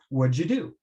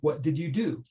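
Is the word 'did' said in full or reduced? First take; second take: reduced; full. First: 'Did' is shortened and joined to 'what'. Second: Every word is said fully and separately. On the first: "what learners might hear is" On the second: "the citation pronunciation would be"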